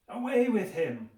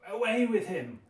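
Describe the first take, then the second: No difference in how they are said.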